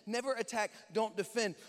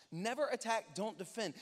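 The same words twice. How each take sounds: The two takes are said the same way.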